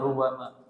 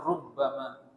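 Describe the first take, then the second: First: The b sound is short and single. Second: The b sound is held and doubled. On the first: This is the reading most listeners follow. "qiraah yang kita baca, itu bacanya rubbama" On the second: This is an alternative reading. "Ada tasydidnya di rubbama"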